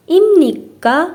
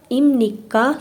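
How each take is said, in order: First: ایم نیکا lifted high and loud, rising at the end; question rise. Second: Said in the usual way. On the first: Shown as a demonstration. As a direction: ask ایم نیکا with a strong rising tune. (ایم نیکا با لحن سوالی بالا) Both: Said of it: "ایم نیکا سوالیه".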